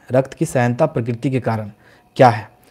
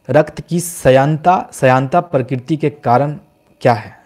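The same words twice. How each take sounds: First: Said in the usual way. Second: Slow, deliberate, each word spaced out; रक्त की श्यानता read out slowly like dictation; slow quiz read. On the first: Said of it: "repeat after the slow take". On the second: Shown as a demonstration. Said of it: "repeated right after at normal pace".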